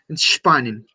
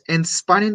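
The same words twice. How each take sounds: First: The S before the P sounds strong. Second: The S before the P sounds weak. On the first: The speaker calls it right. "La S un poquito más pronunciada" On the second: The speaker calls it wrong. "no es entspannen"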